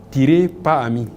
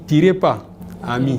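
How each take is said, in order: First: There is a pause after the first word. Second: There is a pause after the second word. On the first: "si on dit tirer, on met virgule" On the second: "tirez pas, virgule et ami"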